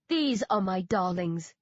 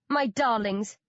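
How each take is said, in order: First: Cooing. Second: Bright proud "My darlings"; beaming. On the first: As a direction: coo "These are my darlings" tenderly. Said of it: "Dan Dan coos". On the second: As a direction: beam out "My darlings" with pride. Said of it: "Dan Dan beams". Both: A narrator's reading.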